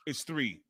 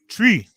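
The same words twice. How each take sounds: First: Said in the usual way. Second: Mock Irish accent, "Tree" said with a plain t and no th, higher and louder. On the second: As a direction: mimic the Irish commentator, "Tree" with a t instead of th. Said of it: "He has the worst accent".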